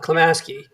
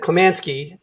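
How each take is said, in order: First: No N sound comes before the S. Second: An N sound comes before the S. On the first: The speaker calls it right. "not Klamaski" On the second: The speaker calls it wrong. "I said Klamansky"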